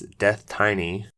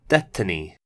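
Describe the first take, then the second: First: It sounds like the two words 'death tiny'. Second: It sounds like the single word 'destiny'. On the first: The speaker calls it wrong. "I'd be pronouncing it as Death Tiny, as I think it would read" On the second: The speaker calls it right. "so it's pronounced Destiny"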